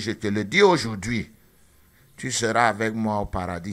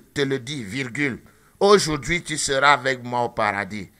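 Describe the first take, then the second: First: The pause comes after 'aujourd'hui'. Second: The pause comes before 'aujourd'hui'.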